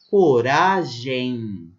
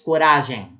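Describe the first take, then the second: First: The ending is a nasal diphthong with an i glide. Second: The ending is said plainly, without an i glide. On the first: The speaker calls it right. "aqui eu tenho um ditongo nasalizado" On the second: The speaker calls it wrong. "Ninguém fala assim"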